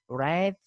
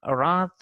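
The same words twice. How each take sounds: First: "wrath" said RATH, vowel as in cat; American pronunciation. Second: "wrath" said RAHTH, long ah; British pronunciation. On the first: Teacher contrasting varieties, American "wrath" with ae. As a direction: stretch the ae in "wrath". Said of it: "the a sound is pr". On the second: Teacher contrasting varieties, British "wrath" with ah. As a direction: open "wrath" out to ah. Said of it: "here a sound is there". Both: Shown as a demonstration.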